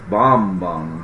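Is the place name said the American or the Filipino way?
Filipino. It is said with the local Filipino pronunciation. This is how local people say it. "it's Bamban here"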